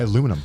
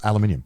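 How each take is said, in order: First: The word is said the American way. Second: The word is said the British way. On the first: The speaker calls it wrong. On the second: The speaker calls it right.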